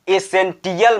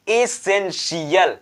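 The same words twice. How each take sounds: First: एसेंटियल with a hard "ti-yal". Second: Slow एसेंशियल, sh in the ending; TI-AL said shi-yal. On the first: Teacher warning against the misreading, hard t in एसेंटियल. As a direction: say एसेंटियल with t instead of sh. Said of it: "एसेंटियल मत पढ़ देना". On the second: Teacher showing the right reading, slow एसेंशियल with sh. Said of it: "तो इसको हम पढ़ेंगे". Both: Shown as a demonstration.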